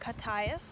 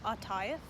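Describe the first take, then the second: First: The word begins with a K sound. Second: The word begins with a vowel sound. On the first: This is how men usually say it. "they'll say it with a G or a K sound" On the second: This is how women usually say it. "women will usually say it with an ata, with an A"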